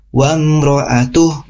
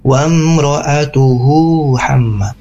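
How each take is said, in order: First: Slow "Wa mro'atuh" closed with a breathy h; stopping on ATUH. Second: "mro'atuhu" with a long hu flowing into "hamma"; joined, long HU. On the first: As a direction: end "mro'atuh" on h with no final vowel. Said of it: "ini kan ada berhenti ya". ("Wa mro'atuh" berhenti di bunyi h) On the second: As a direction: draw out the hu and link it to "hamma". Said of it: "Hu-nya dibaca panjang". ("mro'atuhu" disambung, hu dibaca panjang) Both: Shown as a demonstration.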